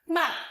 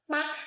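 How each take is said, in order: First: The pitch falls sharply from high to low. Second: The syllable is short, light and unstressed. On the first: It means to scold. "Fourth tone" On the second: It marks a question. "Neutral tone"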